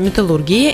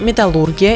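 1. Ударение падает на слог 'gi'. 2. Ударение падает на слог 'lur'. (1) "Сейчас нормативом является" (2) "Не так давно считалось правильным произношение"

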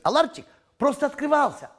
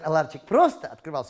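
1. Главное ударение в слове «открывался». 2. Главное ударение в слове «просто». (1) "А нужно говорить" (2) "Все говорят"

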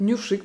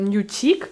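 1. Средний согласный — мягкий звук 'sh'. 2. Средний согласный — звук 'ch'. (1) "Я буду уже говорить нюшик" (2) "всегда говорила нючик. Меня всегда исправляли"

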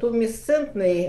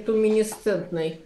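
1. Слово произносится без лишнего слога. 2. Слово произносится с лишним слогом 'ni'. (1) "тумесцентный, а не туминесцентный" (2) "а не туминесцентный"

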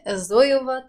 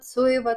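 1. Имя начинается со звука «з». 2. Имя начинается со звука «ц». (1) "говорить Зоева это неправильно" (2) "в немецком Z читается как Ц"

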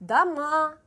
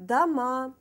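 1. Vurgu son hecededir. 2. Vurgu son hecededir.

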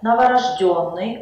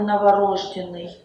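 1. Ударение падает на четвёртый слог. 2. Ударение падает на третий слог.

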